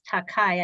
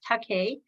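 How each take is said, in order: First: The final syllable sounds like 'kai'. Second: The final syllable sounds like 'kay'. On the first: The speaker calls it wrong. "often mispronounced as" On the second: The speaker calls it right. "but it's"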